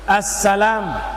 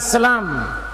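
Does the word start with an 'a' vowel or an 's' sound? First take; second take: a vowel; s sound. First: The word starts with a clear 'a' vowel. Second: The word starts directly with an 's' sound. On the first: The speaker calls it right. "huruf A di situ" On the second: The speaker calls it wrong. "bukan selam"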